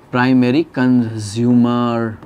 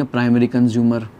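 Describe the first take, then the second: First: Drawn-out, syllable by syllable; measured, very slow term read-out; slow dictation. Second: Said in the usual way. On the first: Shown as a demonstration. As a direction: stretch both words out for note-takers. Teacher dictating the new term.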